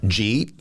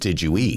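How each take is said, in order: First: The phrase is squeezed into one syllable. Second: The phrase is said with every syllable. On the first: "by taking out syllables" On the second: "which means"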